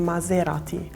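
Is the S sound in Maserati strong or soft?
soft. The S sound is said more softly. This is how it is said in Italy. "and we have"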